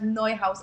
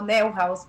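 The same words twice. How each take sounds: First: The name is said with its original sounds. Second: The name is said with Spanish-style sounds. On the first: This is the brand's proper name. The speaker calls it right. "pero el nombre correcto es Neuhaus" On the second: This is how people in Ecuador say it. The speaker calls it wrong. "nosotros en Ecuador lo pronunciamos como Neuhaus"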